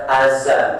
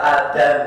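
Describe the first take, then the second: First: The middle consonant is a z sound. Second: The middle consonant is a d sound. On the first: This is how Jakarta people say it. "Orang Jakarta bilang azan" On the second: This is how Javanese people say it. "Orang Jawa bilang suara adan"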